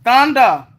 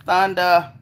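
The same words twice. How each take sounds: First: Excited call. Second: Said in the usual way. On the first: Real, not acted. Calls out viewer name loudly.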